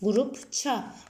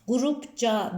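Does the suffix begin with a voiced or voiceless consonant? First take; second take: voiceless; voiced. First: The suffix begins with a voiceless consonant. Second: The suffix begins with a voiced consonant. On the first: The speaker calls it right. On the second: The speaker calls it wrong.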